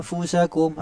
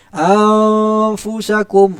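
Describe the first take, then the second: First: Anfusakum said lightly and softly; teacher modelling the correct light Anfusakum; correct thin version. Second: Anfusakum drawn out very slowly, loud and high; teacher demonstrating the wrong heavy Anfusakum; wrong thick version. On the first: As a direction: keep Anfusakum thin and quiet. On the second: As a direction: overdo the thickness on Anfusakum on purpose. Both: Shown as a demonstration. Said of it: "nipis macam tu".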